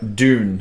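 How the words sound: It is said with a strongly American accent.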